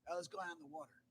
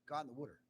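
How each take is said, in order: First: Said in the usual way. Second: "water" said as "wooder"; Delaware-style "water", first syllable like "wood"; Delaware pronunciation. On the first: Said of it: "you don't say that". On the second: Shown as a demonstration. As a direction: give "water" the short oo of "wood". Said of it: "You say "wooder".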